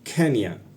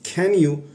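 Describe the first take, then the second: First: The two words run together into one word. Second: The two words are said separately and fully.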